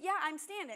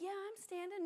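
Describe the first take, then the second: First: It is said in a forceful, aggressive way. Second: It is said in a weak, half-hearted way. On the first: The claim is made with real conviction. The speaker calls it right. "you have to kind of be aggressive" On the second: The claim is empty and lacks conviction. The speaker calls it wrong. "You can't just say"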